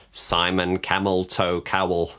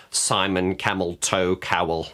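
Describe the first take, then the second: No difference in how they are said.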